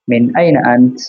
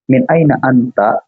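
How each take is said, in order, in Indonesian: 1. Kata terakhir berakhir dengan konsonan. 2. Kata terakhir berakhir dengan vokal. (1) "ya itu pasti lebih enak diwakaf kan" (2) "kalau dibaca harokat terakhirnya"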